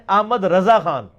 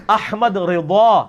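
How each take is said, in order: First: "رضا" as "razaa", with a and z; everyday Urdu pronunciation. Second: "رضا" very slow, "ridaa" with a heavy emphatic d; Arabic dad. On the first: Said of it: "وہ بھی کیا کہتے ہیں". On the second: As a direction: draw out "رضا" with i and a thick dad. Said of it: "ضاد ہے". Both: Shown as a demonstration.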